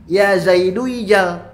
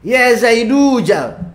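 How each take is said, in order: First: The vowel before jal is an i sound. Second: The vowel before jal is a long u. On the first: The speaker calls it wrong. "Bukan dibaca ya" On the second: The speaker calls it right. "dilafadkan dengan wawu"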